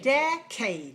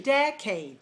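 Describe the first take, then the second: First: The stress is on the first syllable. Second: The same.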